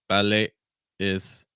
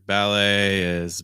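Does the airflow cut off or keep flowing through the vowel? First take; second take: cut off; flowing. First: The breath stops abruptly on the vowel. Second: The breath keeps flowing through the vowel. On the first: The speaker calls it wrong. "we just kind of stop the breath" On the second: The speaker calls it right. "just lots of breaths moving through"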